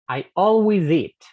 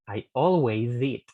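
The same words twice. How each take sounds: First: "I always eat" slow, "always" stressed; slow, loud, separated. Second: "I always eat" with z moved onto "eat"; slow linked. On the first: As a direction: say each word apart, slowly. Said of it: "lo hago como si fuera". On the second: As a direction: join as "alway-zeat". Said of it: "El sonido z". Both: Shown as a demonstration.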